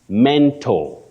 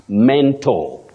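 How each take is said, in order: Both takes have the same delivery.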